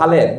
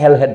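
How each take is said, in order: First: The name is said without a middle h sound. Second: The name is said with a middle h sound. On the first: The speaker calls it right. "নিজের নাম বাংলায় হালেদ লিখতেন, হ আকার লয় আকার দ" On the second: The speaker calls it wrong. "যাকে ভুল উচ্চারণ অনেকে হেলহেড বলে"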